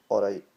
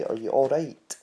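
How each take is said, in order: First: "All right" with the T dropped from the back of the throat; Scottish "all right". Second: "Are you all right?" with a crisp, fully sounded T; crisp English T. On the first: Teaching Scottish speech, a glottal "All right". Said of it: "Just say it like". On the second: Mocking shows, a carefully pronounced T. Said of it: "I didn't say". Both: Shown as a demonstration.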